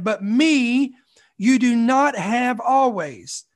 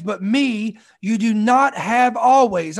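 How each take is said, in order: First: Slower, weight on not; slower, emphatic repeat; repeated for emphasis. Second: Steady stress on always; first pass, weight on always; first reading. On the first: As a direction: say it again, leaning hard on not. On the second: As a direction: read it once, leaning on always. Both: Shown as a demonstration. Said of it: "I'm gonna say that again".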